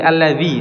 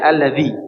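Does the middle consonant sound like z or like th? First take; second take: z; th. First: The middle consonant sounds like z. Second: The middle consonant sounds like th in this. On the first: The speaker calls it wrong. "bukan alladzi" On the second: The speaker calls it right. "tapi alladzi zi dzal"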